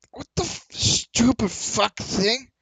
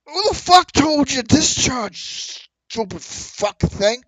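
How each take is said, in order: First: High, very slow slurred curse at the gun; drunk curse. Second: High, slow, slurred curse at the gun; angry drunk yell. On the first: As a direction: drag the insult out in frustration. Drunk NPC curses jammed gun. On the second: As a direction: bellow it out, drunk and furious. Drunk NPC yells at his gun. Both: Acted.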